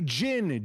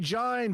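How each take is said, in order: First: The vowel is short, like in win. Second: The vowel is long, like eye. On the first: The speaker calls it right. "it's a short vowel sound. Eh. That's why you say Gin" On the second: The speaker calls it wrong. "you don't say Gine? Because it doesn't have an E on the end"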